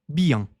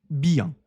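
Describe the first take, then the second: Both takes have the same delivery.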